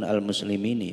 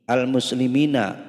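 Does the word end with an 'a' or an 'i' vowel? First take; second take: i; a. First: The word ends with an 'i' vowel. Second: The word ends with an 'a' vowel. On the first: The speaker calls it wrong. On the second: The speaker calls it right.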